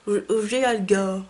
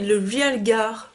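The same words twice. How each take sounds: First: "Realgar" tried another way, slow, with a changed vowel start; unsure second try. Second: Slow, hesitant "Realgar" sounded out syllable by syllable; unsure first try. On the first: Retrying the shade name for viewers, still unsure. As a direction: try "Realgar" again with a different, more French sound. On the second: Sounding out an unknown shade name to viewers, hesitant. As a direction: test "Realgar" carefully, unsure how it goes. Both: Shown as a demonstration. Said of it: "je sais pas comment on dit".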